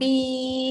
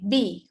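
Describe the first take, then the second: First: The vowel is held long. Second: The vowel is held short. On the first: The speaker calls it right. "dibaca panjang" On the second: The speaker calls it wrong. "cuba baca pendek"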